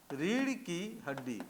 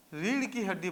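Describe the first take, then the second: First: रीढ़ की हड्डी slowly, each word separate. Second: Said in the usual way. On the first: Shown as a demonstration. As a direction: dictate रीढ़ की हड्डी at a slow pace. Repeating phrase for note-taking.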